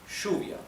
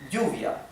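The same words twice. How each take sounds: First: It is said in Rioplatense Spanish, with an sh sound. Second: It is said in general Spanish, with a y-like sound.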